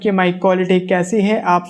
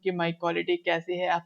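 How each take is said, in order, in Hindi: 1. आवाज़ तेज़ और साफ़ सुनाई देती है। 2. आवाज़ धीमी और कम साफ़ सुनाई देती है।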